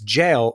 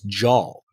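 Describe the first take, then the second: First: The word rhymes with pale. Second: The word does not rhyme with pale. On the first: The speaker calls it right. "it's jail rhyming with pale" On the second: The speaker calls it wrong. "you were pronouncing the acronym J A L as JAL"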